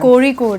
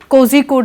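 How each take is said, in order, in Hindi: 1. बीच का व्यंजन r जैसी ध्वनि है। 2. बीच का व्यंजन zh जैसी ध्वनि है। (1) "कोरी कोड है" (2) "कोजी कोड नहीं है"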